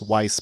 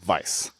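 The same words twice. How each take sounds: First: The name begins with a W sound. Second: The name begins with a V sound. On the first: This is how the spelling suggests it is said. The speaker calls it wrong. "it looks like his name is pronounced Weiss" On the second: This is how German speakers said it. The speaker calls it right. "in his tongue ... they would have been saying Weiss"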